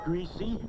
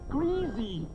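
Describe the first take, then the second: First: It uses the northern regional pronunciation. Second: It uses the southern regional pronunciation. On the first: The speaker comes from north of Philadelphia. "He said greasy, That puts him north of Philadelphia" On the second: The speaker comes from south of Philadelphia. "not greasy"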